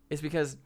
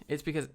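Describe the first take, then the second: No difference in how they are said.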